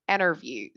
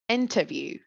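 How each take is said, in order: First: The T after N is dropped. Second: The T after N is pronounced. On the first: "They just removed it" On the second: "British people say"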